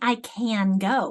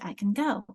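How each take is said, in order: First: The vowel in 'can' is full and clear. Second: The vowel in 'can' is reduced to schwa. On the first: The speaker calls it wrong. "You don't say" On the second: The speaker calls it right. "We say, ... So it's an unstressed, it becomes schwad"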